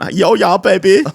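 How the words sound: It is spoken in an Indian accent. "here's an Indian accent"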